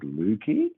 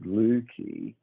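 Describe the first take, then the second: First: The pitch goes up at the end. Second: The pitch does not rise at the end.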